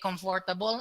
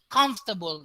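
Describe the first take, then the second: First: The vowel after "m" is pronounced fully. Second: The vowel after "m" is dropped entirely. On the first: The speaker calls it wrong. "Dili comfortable" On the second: The speaker calls it right. "They omit letter O"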